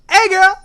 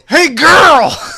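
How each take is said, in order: First: It is said in a high-pitched voice. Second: It is said in a lower-pitched voice. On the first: "higher pitched, right?" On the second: "we had a friend who would go"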